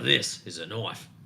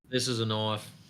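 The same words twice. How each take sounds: First: The line is delivered with full dramatic effort. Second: The line is delivered casually, without real effort.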